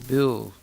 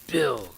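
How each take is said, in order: First: The name is spoken warmly and tenderly. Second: The name is called out harshly and abruptly. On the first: The caller feels love for the person. The speaker calls it right. "the grandmother's voice is full of affection" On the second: The caller is being condescending or rough. The speaker calls it wrong. "It sounds ominous. It doesn't sound like there's affection"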